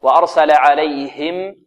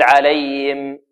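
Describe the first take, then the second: First: Slow "وأرسل عليهم" with the ه fully sounded; correct clear ha. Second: "عليهم" said "alayim", ha missing; wrong swallowed ha. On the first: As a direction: recite "عليهم" with an audible separate "him". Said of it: "خطأ". («وأرسل عليهم» بهاء واضحة) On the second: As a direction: mistaken demo, drop the ه of "عليهم". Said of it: "لا نقول". («عليهم» خطأً بلا هاء ظاهرة) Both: Shown as a demonstration.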